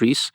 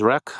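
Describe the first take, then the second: First: It is said as one syllable ending in s. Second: It is said as one syllable ending in k. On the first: This is the speaker's own usual pronunciation. "I call it Reese" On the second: Other people say it this way. "I heard a couple of people pronounce it as Rec"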